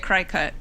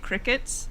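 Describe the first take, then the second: First: The first syllable sounds like 'cry'. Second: The first syllable sounds like 'crick'. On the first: This is the speaker's own way of saying it. "I say cry cut because it's the word cut" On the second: This is how most people say it. "people say crickets"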